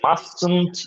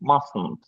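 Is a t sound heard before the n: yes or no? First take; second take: yes; no. First: A t sound is said before the n. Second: No t sound comes before the n. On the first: The speaker calls it wrong. "এটা মাস্টন্ট না, মাস্টন্ট বলে কিছু নাই" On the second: The speaker calls it right. "It's মাসন্ট"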